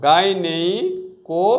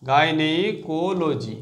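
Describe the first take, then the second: First: gynaecology said slowly, syllables drawn out; slow it down so they catch each part. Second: gynaecology stretched out syllable by syllable; very slow syllables. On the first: Teacher to students, slow gynaecology. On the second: Teacher drilling students, very slow syllables. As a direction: break gynaecology apart very slowly. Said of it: "ঠিক আছে?". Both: Shown as a demonstration.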